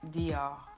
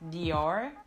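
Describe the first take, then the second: First: The final R is barely audible. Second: The final R is clearly pronounced. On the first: The speaker calls it right. "You barely can't hear it at the end of the word Dior" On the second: The speaker calls it wrong. "So not Dior"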